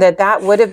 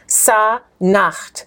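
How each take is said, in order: First: The name is said as three syllables, si-nu-he. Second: The name is said as two syllables, sa-nehet. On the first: This is the name reconstructed from Coptic vocalization. "we've been taught through vocalization" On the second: This is the name as written in the text. "When you read the text, what's the man's name?"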